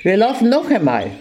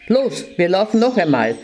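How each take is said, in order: First: Angry scolding. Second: Said in the usual way. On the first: Acted. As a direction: snap it out beside yourself with rage. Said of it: "Ganz außer sich vor Ärger schimpfte". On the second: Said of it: "Er rief".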